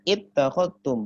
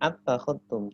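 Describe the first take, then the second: First: The word begins with an i vowel. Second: The word begins with an a vowel. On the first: The speaker calls it right. "Jadi bacanya ittakhadtum" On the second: The speaker calls it wrong. "atau attakhadtum"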